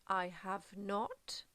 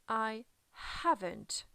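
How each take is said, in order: First: All three words are said separately in full. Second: Have and not merge into one contracted word.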